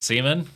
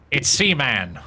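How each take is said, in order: First: Said in the usual way. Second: "Seaman" with a full drawn-out "man"; corrected pronunciation. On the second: Acted. Correcting someone on the name, "Seaman" with a full "man". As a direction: stress both halves of "Seaman", sea-MAN.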